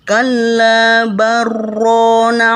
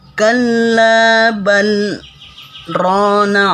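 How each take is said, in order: First: The l merges into the r without a pause. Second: A brief held stop comes after bal. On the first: The speaker calls it wrong. "jangan kita baca" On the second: The speaker calls it right. "berhenti sejenak dan ditahan napas"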